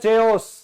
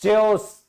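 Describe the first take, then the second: First: The word begins with a ch sound. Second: The same.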